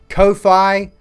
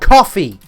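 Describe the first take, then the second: First: It starts with a long 'oh' sound. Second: It sounds exactly like the word coffee. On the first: The speaker calls it wrong. "I've heard people call it Kofi" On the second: The speaker calls it right. "it's called coffee"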